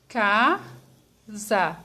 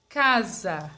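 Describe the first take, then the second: First: "Casa" split as ca, za with a pause between; syllable by syllable. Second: Said in the usual way. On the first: Shown as a demonstration. Teacher showing how to separate casa, syllable by syllable. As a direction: say "Casa" slowly, one syllable at a time. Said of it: "eu falo devagar". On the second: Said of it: "separar a palavra casa".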